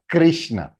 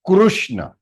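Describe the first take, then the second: First: The first syllable sounds like 'kri'. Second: The first syllable sounds like 'kru'. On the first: This is how it is said in Hindi and other languages. "not Krishna" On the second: This is the Sanskrit pronunciation. "It is Krushna, not Krishna"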